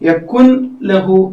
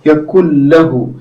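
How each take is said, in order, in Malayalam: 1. n ശബ്ദം l-ന് മുമ്പ് ഉച്ചരിക്കുന്നു. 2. n ശബ്ദം അടുത്ത l-ൽ ലയിക്കുന്നു. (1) "എന്ന് വായിക്കരുത്" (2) "ഇങ്ങനെയാണ് വായിക്കുക"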